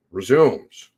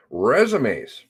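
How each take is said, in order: First: "Resumes" said as ri-ZOOMS; "Resumes" in two syllables, rhyming with "booms"; mispronounced resumes. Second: Said in the usual way. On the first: Real, not acted. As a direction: say "Resumes" like the verb, ending in ZOOMS. Playful second pronunciation of resumes.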